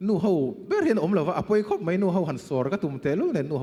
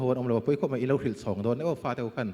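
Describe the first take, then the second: First: Higher and louder, pressing the point; raised emphatic question. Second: Said in the usual way. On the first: Shown as a demonstration. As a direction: push the question out high and loud. Repeats the question, first louder.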